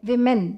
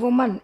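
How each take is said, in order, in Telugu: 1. ఈ పదం 'vi' ధ్వనితో మొదలవుతుంది. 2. ఈ పదం 'oo' ధ్వనితో మొదలవుతుంది. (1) "వి ఆ ప్రొనౌన్సియేషన్ రావాలి" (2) "చాలామంది ఉమన్ ఉమన్ అంటారు అది తప్పు"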